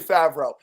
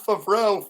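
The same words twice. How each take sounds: First: The name is said in a plain, ordinary way. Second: The name is said in an exaggerated, affected way. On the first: The speaker calls it right. "it's definitely Favreau" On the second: The speaker calls it wrong. "I'm pronouncing it like an asshole on purpose"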